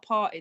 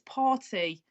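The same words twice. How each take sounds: First: The t in the middle is dropped. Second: The t in the middle is clearly pronounced. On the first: "from Manchester, where I'm from, it's party" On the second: "There's a T in it"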